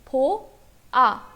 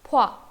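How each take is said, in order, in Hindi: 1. दोनों स्वर अलग-अलग अक्षरों की तरह बोले जाते हैं। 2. दोनों स्वर मिलकर एक अक्षर बन जाते हैं। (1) "अब ये भो आ अलग अलग नहीं होता है" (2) "मर्ज हो जाता है"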